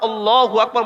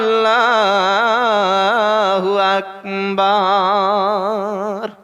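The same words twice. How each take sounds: First: The vowels are kept short without any drawl. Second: The vowels are stretched out with a long drawl. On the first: The speaker calls it right. "বলে ছেড়ে দে" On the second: The speaker calls it wrong. "অত টান তোর কে দিতে বলেছে?"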